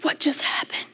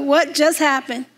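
First: Stunned whisper to herself. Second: Said in the usual way. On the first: Retold or imitated. Alone on the plane, whispering her stunned thought. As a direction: breathe it out in disbelief.

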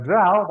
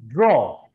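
First: "draw" misread with AH-oo, "drau"; wrong "draw". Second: "draw" with an O vowel, "dro"; correct "draw". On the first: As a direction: open "draw" into "drah-oo". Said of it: "Bukan draw". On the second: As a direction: round "draw" to "draw-O", falling. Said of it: "Ada O-nya". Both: Shown as a demonstration.

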